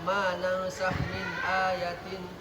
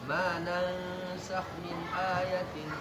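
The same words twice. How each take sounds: First: A long vowel is cut too short. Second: The long vowels are held for an even length. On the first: The speaker calls it wrong. "angnya kurang" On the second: The speaker calls it right. "Kalau dua harakat ya"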